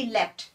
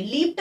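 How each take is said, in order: First: लेफ्ट said as left, short e; correct pronunciation. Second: लीप्ट said with a long ee, leept; wrong pronunciation. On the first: Teacher giving students the right reading, लेफ्ट like left. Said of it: "इसको भी आप लेफ्ट ही पढ़ोगे". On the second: Teacher warning students off the wrong reading, लीप्ट as leept. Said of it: "मत पढ़ना". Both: Shown as a demonstration.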